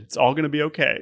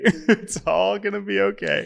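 First: Said in the usual way. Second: Laughing. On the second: Real, not acted.

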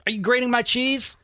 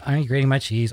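First: Much higher, rising tune on my; "grating my cheese" with pitch high, ending on a rise; peak of the giddy list. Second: Said in the usual way. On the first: Retold or imitated.

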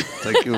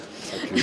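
First: Squeaky mock thanks. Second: Whispered thank you through a laugh; breathless laughing thanks. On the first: Co-host hams up thanks to Ruth, high playful squeak. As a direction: thank you squeaked much higher, playful. Bashful thanks after praise. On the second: Real, not acted. Co-host thanks Ruth for praising his pronunciation, laughing breathily.

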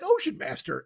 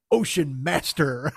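First: Higher, incredulous echo of the title; scoffing at the silly name, pitched up; mocking repeat. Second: Low, slow grandiose delivery; hammed-up villain naming himself, slow; mock-grand title. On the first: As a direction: repeat it like it's absurd. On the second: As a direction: intone it like an epic title. Shark king names himself.

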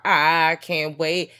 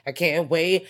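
First: Slow, stretched, louder savoring; drawn-out glee. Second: Said in the usual way. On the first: Pretend. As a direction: drag every word out with relish.

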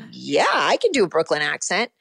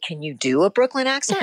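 First: Put-on Brooklyn accent with swooping pitch. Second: Said in the usual way. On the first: Actor assuring casting director she can do it, Brooklyn accent. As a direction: answer in a playful Brooklyn accent. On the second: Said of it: "And he said".

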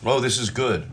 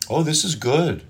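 First: Understated fake praise. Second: High, gushing compliment; overdone fake praise. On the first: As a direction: hold back the enthusiasm. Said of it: "if they think that's too much". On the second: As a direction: sell it too hard. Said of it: "they know you're full of shit".

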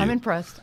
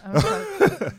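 First: Said in the usual way. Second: Squeaky high impressed; high mock voice. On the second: Shown as a demonstration. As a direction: repeat it in a squeaky voice.

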